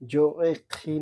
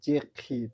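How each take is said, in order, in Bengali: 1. দুটো স্বরধ্বনিই আলাদা দুটি দল হিসেবে উচ্চারিত হয়। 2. প্রথম স্বরধ্বনিটি বাদ যায় এবং শব্দ দুটি মিশে যায়। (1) "জো-এ-খি না হয়ে" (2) "একটা ভাওয়েল কেটে যাবে"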